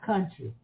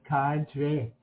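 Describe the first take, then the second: First: It is said in a more standard accent. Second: It is said in a broad Southern country accent. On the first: The speaker calls it wrong. "Not country" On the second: The speaker calls it right. "Just country"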